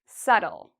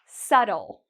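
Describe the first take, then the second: First: The B sound is silent in the word. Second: The B sound is silent in the word.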